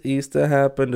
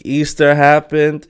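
First: Said in the usual way. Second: "Easter happened" slow, higher and louder; proud, slow "Easter happened"; emphatic announcement. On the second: Shown as a demonstration. Repeats Easter happened twice.

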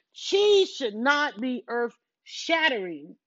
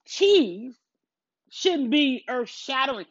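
First: "Cheese should not be earth-shattering" spaced out word by word, very slow; slow emphatic restatement. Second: Said in the usual way. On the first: Real, not acted. Scolding the angry commenters, in a slow, emphatic restatement. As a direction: lean on every word, slowly.

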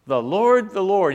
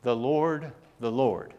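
First: Loud, raised preacher's proclamation; proclaiming. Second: Measured reading of scripture, unforced; careful, unhurried retold Bible reading; reading real slow. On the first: Retold or imitated. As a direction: proclaim the holy name, high and loud. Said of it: "proclaimed his name". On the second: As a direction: read each phrase deliberately, with room around it. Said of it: "read it real slow".

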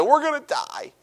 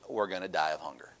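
First: High, mock-dramatic wail; overdramatic wail. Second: Mock doom. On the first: Preacher mocks the Israelites' overdramatic cry of doom. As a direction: ham up the panic like a doomed crowd. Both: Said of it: "A little overdramatic".

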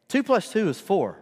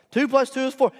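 First: Said in the usual way. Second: "Two plus two is four" higher and louder, each word hit; emphatic certainty. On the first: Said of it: "here's how I do it". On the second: Shown as a demonstration. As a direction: declare "Two plus two is four" as undeniable fact. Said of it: "You know that. That's established truth".

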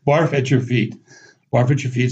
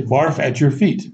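First: "Barf at your feet" enchaîné vite, d'un seul souffle; said fairly quickly. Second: "Barf at your feet" dit lentement, mot par mot; détacher "Barf at your feet" lentement; sound-alike phrase. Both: Shown as a demonstration. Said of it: "But you say it fairly quickly".

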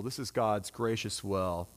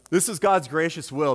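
First: Lower, softer and slow, "God's gracious will" savored; soft repetition. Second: Louder, God's gracious will proclaimed firmly; emphatic declaration. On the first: Preacher repeating to the congregation, soft and slow. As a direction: let it sink in gently. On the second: Preacher proclaiming to the congregation, firm and louder. Repeats the line twice. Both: Acted.

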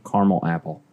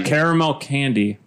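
First: "caramel" as CAR-mul; two-syllable caramel. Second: "caramel" as CARE-uh-mel; three-syllable caramel. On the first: Testing the apple word, "caramel" as CAR-mul. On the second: Testing the candy word, "caramel" as CARE-uh-mel. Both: Shown as a demonstration. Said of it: "The application is what changes the word".

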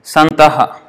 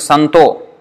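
First: "Santaha" ending in a breathed aha; word-by-word form. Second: "Santo" ending on a long o; verse sandhi form. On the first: Teacher reading the word-to-word form, full ending. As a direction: end "Santaha" on a separate ha syllable. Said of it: "if you see the word to word". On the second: Teacher showing how the verse changes it, o ending. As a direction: say "Santo" with no ha at the end. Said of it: "in the verse it is Santo". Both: Shown as a demonstration.

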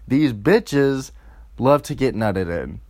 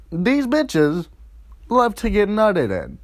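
First: Said in the usual way. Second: "These bitches" higher, stressed for emphasis; emphatic retake. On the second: Shown as a demonstration. Comic rewinds to repeat his point, emphatic retake. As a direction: redo "These bitches" with a higher-pitched punch. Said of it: "let me rewind".

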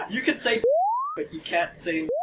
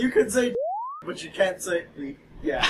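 First: High giggly speech through laughter; giggling. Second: Giggly prank whisper. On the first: Real, not acted. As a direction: say it while cracking up. First take, laughing. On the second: Retold or imitated. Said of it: "It's gonna say".

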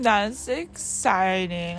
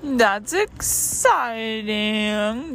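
First: Said in the usual way. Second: Slow drawn-out excitement. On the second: Real, not acted.

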